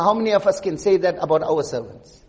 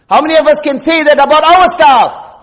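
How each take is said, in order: First: Softer, dropped "How many of us can say that about our servants?"; quiet reflective question. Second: "How many of us can say that about our staff?" higher and louder, stress on "our"; raised repeated question. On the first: Preacher turning the question on the congregation, quietly. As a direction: ask it low, almost to yourself. Question then repeated louder. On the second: Preacher challenging listeners about their staff, raised voice. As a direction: throw the question out to the whole room. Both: Real, not acted.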